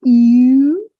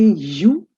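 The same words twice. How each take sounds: First: "U" as long, loud French u. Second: "U" said as English yoo. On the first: Teacher modelling the right letter, French U. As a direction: glide "U" from ee towards oo, higher. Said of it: "It's a very gentle progress from E". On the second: Teacher showing what not to say, English U. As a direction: say "U" with a y glide, yoo. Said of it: "You don't say U". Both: Shown as a demonstration.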